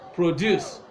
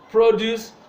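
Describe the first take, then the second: First: The stress is on the second syllable. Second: The stress is on the first syllable. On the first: It is used as a verb. "When it is a verb" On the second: It is used as a noun. "When it is a noun"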